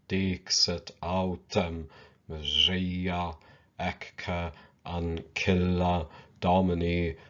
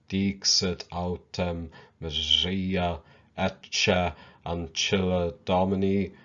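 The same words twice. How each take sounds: First: The Latin is read in classical pronunciation. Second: The Latin is read in ecclesiastical pronunciation. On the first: "Let us first read it in the classical pronunciation" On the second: "let us now pronounce it using the ecclesiastical pronunciation"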